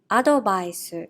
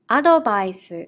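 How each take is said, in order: First: It is said with Japanese katakana pronunciation. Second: The same.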